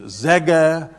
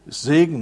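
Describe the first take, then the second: First: "Säge" with open ä and no final n; imitated dialect "Säge", ending dropped; dialect Segen. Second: Said in the usual way. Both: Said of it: "für mich seltsame Sprache".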